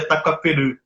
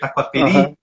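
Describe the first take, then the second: First: The last vowel is made deep in the throat. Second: The last vowel is a plain front i sound. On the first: The speaker calls it right. "na verdade a pronúncia certa é" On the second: The speaker calls it wrong. "a gente lê"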